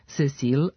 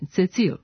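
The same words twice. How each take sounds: First: The c is said as an s sound. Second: The c is said as a ts sound. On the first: The speaker calls it right. "ispravno pisati i govoriti" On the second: The speaker calls it wrong. "a ne Cecil"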